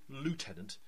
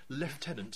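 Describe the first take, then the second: First: It is said with an American pronunciation. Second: It is said with a British pronunciation. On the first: This is the supposedly correct way to say it. "if, you know, you pronounce it correctly" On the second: This is how people in the UK say it. "as we would say"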